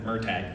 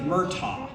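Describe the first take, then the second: First: It is said with flat, American-sounding vowels. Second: It is said with rounder, Irish-sounding vowels. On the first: This is how Americans say it. "I'm an American" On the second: This is how Irish people say it. "if you're Irish, you say Murtagh"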